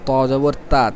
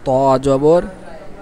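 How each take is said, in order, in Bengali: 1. স্বরটি হালকা ও পাতলা শোনাচ্ছে। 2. স্বরটি ভারী ও মোটা শোনাচ্ছে।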